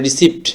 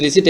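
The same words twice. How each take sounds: First: রিসিপ্ট with the p sounded, "ri-sipt"; spelling pronunciation. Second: রিসিট with silent p, "ri-seet"; correct pronunciation. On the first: Teacher reads it as spelled, p sounded. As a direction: voice the p before t in রিসিপ্ট. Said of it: "উচ্চারণ যদি সঠিকভাবে করতে যাই, বানান অনুযায়ী". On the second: Teacher gives viewers the correction, silent p. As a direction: leave the p out of রিসিট. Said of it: "সঠিক উচ্চারণটা হচ্ছে". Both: Shown as a demonstration.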